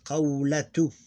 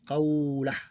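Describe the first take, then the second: First: The word ends in a t sound plus vowel. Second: The word ends in an h sound, no vowel. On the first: The word is in the middle of a sentence. "You pronounce this T like this" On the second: The word ends the sentence. "We ignore the vowel"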